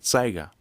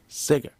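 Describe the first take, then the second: First: The first vowel is a long 'ay' sound. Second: The first vowel is a short 'eh' sound. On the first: The speaker calls it wrong. "they adopt the A sound instead of the E sound, and they pronounce it Sega" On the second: The speaker calls it right. "It's still making the E sound"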